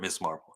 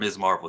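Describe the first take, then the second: First: The first word ends with a hissing s sound. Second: The first word ends with a buzzing z sound. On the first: The speaker calls it wrong. "Miss is M I S S. He said it the wrong way" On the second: The speaker calls it right. "Miz, like M S period spells Miz, like the wrestler"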